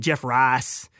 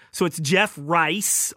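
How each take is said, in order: First: Southern accent, "Rice" flattened to "Rahs" with no glide; Southern drawl on "Jeff Rice", vowel "ah" not "eye". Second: "Rice" with a full "eye" diphthong, said slowly; careful standard Rice. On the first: Host shows how he usually says the name, Southern accent. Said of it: "'cause that's my Southern accent". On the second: Host corrects his Southern pronunciation of the name, careful standard. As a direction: spell it out clearly as "Rice", rhymes with nice. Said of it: "I'm gonna say Rice 'cause everybody makes fun of me". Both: Shown as a demonstration.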